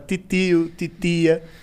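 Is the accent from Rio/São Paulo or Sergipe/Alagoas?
Sergipe/Alagoas. It is said in a Sergipe/Alagoas accent.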